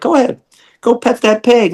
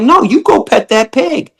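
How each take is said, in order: First: Much higher, teasing push; high mock urging. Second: Higher, pushier repeat; insist, raising the voice; insistent high urging. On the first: [name] urging a meat eater to pet the pig, high and teasing. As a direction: egg the visitor on in a lifted voice. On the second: Retold or imitated. [name] insisting the visitor pet the pig, high and insistent. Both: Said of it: "I'm like".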